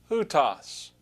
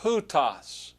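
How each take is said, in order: First: "hutos" said with a clear h at the start; aspirated "hutos"; corrected with rough breathing. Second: "Hutos" said as "utos" with no breathing; unaspirated "Hutos"; first take without h. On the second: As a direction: drop the h in "Hutos". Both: Shown as a demonstration. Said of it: "there's a rough breathing mark".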